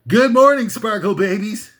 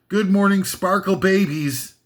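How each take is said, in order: First: It is said excitedly, like an exclamation. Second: It is said flatly, without excitement.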